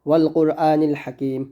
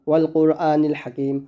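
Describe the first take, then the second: Both takes have the same delivery.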